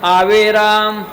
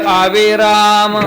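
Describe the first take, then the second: Both takes have the same delivery.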